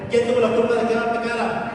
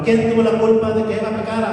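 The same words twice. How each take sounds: First: Higher, urging call; pushing for more. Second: Louder rallying call to the congregation; preacher's rallying question; call-and-response question. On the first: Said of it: "Más fuerte". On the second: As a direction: fire the question out to the crowd. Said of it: "díganlo fuerte". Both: Shown as a demonstration.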